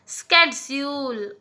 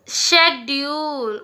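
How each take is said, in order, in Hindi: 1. यह 'sk' ध्वनि से शुरू होता है, अमेरिकी तरीके से। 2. यह 'sh' ध्वनि से शुरू होता है, ब्रिटिश तरीके से। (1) "अमेरिका में कहा जाता है" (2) "ब्रिटिश में कैसे प्रोनाउंस किया जाता है"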